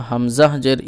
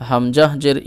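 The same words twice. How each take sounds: Both takes have the same delivery.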